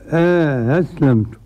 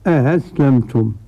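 First: Softened second hamza with an inserted alif before it. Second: Softened second hamza with no inserted alif. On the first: "بتسهيل الهمزة الثانية مع إدخال ألف بينهما" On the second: "بتسهيل الهمزة الثانية بدون إدخال"

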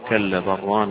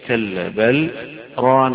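First: 'Bal' runs straight into 'rana' without stopping. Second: A brief stop without breath comes after 'bal'. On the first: "ويجوز الوصل" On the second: "فالسكت معناه التوقف على هذا الحرف من غير أخذ نفس فيه ثم البدء بغيره"

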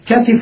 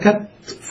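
First: The middle consonant is followed by a short vowel. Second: The middle consonant has no vowel after it.

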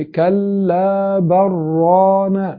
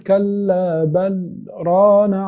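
First: 'Bal' runs straight into 'rana' without a break. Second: There is a very brief pause after 'bal'. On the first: The words merge, spoiling the meaning. The speaker calls it wrong. "انت كده وصلت" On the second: It draws attention to something. The speaker calls it right. "كأنك سكت سكتة لطيفة جدا"

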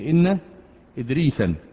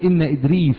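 First: The name ends with an added 'an' nunation sound. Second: The name ends without an added nunation sound. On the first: The speaker calls it wrong. "ما تقولش إن إدريسا" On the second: The speaker calls it right. "يبقى تقول إن إدريس"

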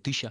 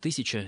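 First: The word is shortened, with syllables dropped. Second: The word is said with every syllable. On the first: A casual, careless way of speaking. The speaker calls it wrong. "не будет говорить" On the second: A careful way of speaking. The speaker calls it right. "скорее скажет «тысяча»"

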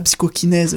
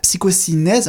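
First: The middle consonant is a K sound. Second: The middle consonant is an S sound. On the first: This is the English form of the word. "et pas psychokinèse, version anglaise" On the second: This is the French form of the word. "moi je dis version française"

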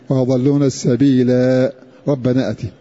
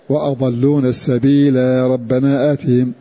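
No difference in how they are said.

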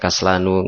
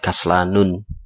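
First: The word ends on a vowel without final n. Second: The word ends with an added final n sound. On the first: The speaker calls it right. "Kenapa dibaca kaslanu" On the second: The speaker calls it wrong. "enggak di kaslanun"

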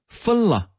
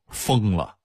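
First: It is said with a standard Mandarin pronunciation. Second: It is said with a Datong dialect pronunciation.

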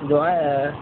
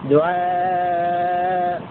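First: The vowel before the hamza is kept short. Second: The vowel before the hamza is held long. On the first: "والقصر" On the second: "مع المد"

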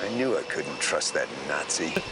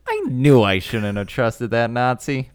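First: It sounds detached, not personally offended. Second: It sounds personally offended.

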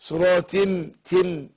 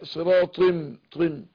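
First: The final t is plain, not emphatic. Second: The final t is emphatic and heavy. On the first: The speaker calls it wrong. "مش تي تي صراط تم، لا" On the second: The speaker calls it right. "لا صراط طم"

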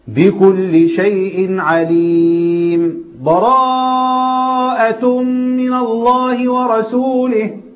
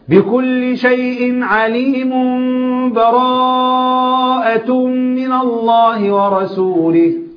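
First: There is a brief pause with no breath. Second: The words run on with no pause. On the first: The reciter pauses briefly without fully stopping. "سكتة ما خدتش فيها نفس" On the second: The reciter joins the two surahs together. "الوسط"

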